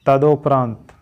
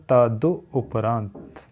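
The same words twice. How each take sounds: First: तदुपरांत said as ta-du-pa-raant, full first syllable; correct pronunciation. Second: तदुपरांत drawn out slowly, syllable by syllable; slow careful pronunciation. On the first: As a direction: say तदुपरांत clearly, every syllable. (तदुपरांत का सही उच्चारण) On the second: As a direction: spell out तदुपरांत slowly for students. (तदुपरांत धीरे-धीरे स्पष्ट उच्चारण) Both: Shown as a demonstration. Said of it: "तदो नहीं होता".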